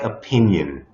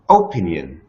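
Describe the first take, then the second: First: The stress is on the second syllable. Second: The stress is not on the second syllable. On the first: The speaker calls it right. "the second syllable is stressed" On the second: The speaker calls it wrong. "เราไม่ได้พูดว่า opinion"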